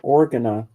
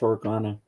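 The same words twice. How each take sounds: First: The name begins like the word organ. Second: The name does not begin like organ. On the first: The speaker calls it wrong. "you can say it like that" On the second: The speaker calls it right. "but it's Organa"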